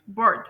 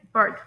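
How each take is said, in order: First: "बर्ड" with a clearly pronounced r; American pronunciation. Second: "बर्ड" with a smooth, softened r; British pronunciation. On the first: Teacher showing learners the American English word, clear-r pronunciation of "बर्ड". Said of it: "थोड़ा words को मोटा करके बोला जाता है". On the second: Teacher showing learners the British English word, smooth-r pronunciation of "बर्ड". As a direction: say "बर्ड" the British way, r barely sounded. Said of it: "British English में है बर्ड". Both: Shown as a demonstration.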